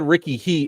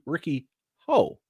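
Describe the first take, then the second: First: The surname is said like 'hee'. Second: The surname is said like 'ho'. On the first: The name is read from its spelling. "It's H E. I'm American. I read it that way" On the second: The name is said as reportedly heard from others. "But I heard that it was actually Ricky Ho"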